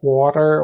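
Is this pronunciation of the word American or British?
American. It is said in an American accent. "padrões americano"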